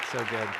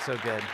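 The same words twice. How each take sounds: The two takes are said the same way.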